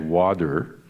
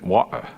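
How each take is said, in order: First: It is said in a Californian American accent. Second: It is said in a Cockney London accent. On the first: "the California version" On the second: "with a Cockney accent"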